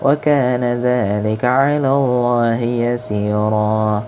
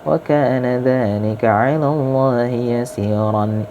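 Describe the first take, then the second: First: The last word ends in a long 'a' vowel. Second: The last word ends with an 'an' sound. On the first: The reading stops at this word. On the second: The reading continues into the next word.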